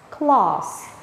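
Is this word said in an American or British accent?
British. British accent, with a long open 'ah' vowel.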